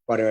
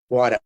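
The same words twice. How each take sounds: First: It is said in a neutral accent. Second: It is said in a Boston accent.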